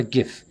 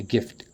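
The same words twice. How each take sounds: First: Gif said without the final t, the mistaken version; wrong word gif. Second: Gift with the final t clearly sounded, the correction; corrected to gift. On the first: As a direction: say gif clipped short with no t sound at the end. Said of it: "a gift". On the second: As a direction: land the t at the end of gift firmly. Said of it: "Not a gif". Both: Shown as a demonstration.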